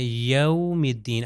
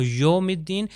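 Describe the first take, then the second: First: یوم slow with soft diphthong yaum; soft glide. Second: یوم said as plain yom, no glide; wrong vowel. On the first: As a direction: ease یوم out gently, slowly. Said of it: "لین یعنی نرمی سے". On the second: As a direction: clip یوم to a flat o. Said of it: "تو یہ غلط ہو جائے گا". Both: Shown as a demonstration.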